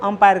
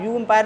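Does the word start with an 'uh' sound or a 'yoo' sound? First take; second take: uh; yoo. First: The word begins with an 'uh' sound. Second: The word begins with a 'yoo' sound. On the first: The speaker calls it right. "अंपायर कहते हैं" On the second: The speaker calls it wrong. "यू अंपायर नहीं कहते हम लोग"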